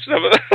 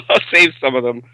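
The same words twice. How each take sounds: First: Laughing through the words. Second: Said in the usual way. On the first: Real, not acted. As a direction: let a chuckle break into them. Laughs mid-sentence, then repeats.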